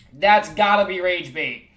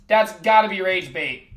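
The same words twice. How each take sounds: The two takes are said the same way.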